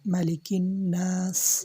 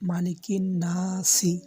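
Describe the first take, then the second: First: The last word stops on the 's' sound. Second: The last word ends with an added 'i' vowel. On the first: The speaker calls it right. "আমরা এখানে অস্ফ করব, আপনাকে এখানে থামতে হবে" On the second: The speaker calls it wrong. "অনেকেই এইভাবে পড়ে"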